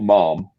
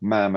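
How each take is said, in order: First: The vowel is long, rhyming with smarm. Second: The vowel is short, rhyming with jam. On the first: The speaker calls it wrong. "not ma'am, as in smarm" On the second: The speaker calls it right. "ma'am as in jam"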